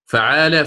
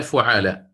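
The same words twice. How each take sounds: First: فعال pronounced "fa'aala"; short a on the f of فعال; first letter with fatha. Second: فعال pronounced "fu'aala"; short u on the f of فعال; first letter with damma. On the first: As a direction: start فعال with "fa", then long aa. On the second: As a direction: start فعال with "fu", then long aa. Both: Shown as a demonstration. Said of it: "بالفتح أو الضم".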